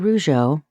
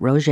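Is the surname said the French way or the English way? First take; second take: French; English. First: The name is said with a French-like sound. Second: The name is said like the English name Roger. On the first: This is how the media says the name. The speaker calls it wrong. "Rougeau is closer to the correct French pronunciation" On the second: This is how the family says the name. The speaker calls it right. "we actually pronounce it Roger"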